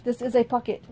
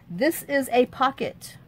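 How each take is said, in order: First: Even, mechanical robot voice. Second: Slow, even robot voice. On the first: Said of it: "The robot to Candace". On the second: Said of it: "Says the robot". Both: Pretend.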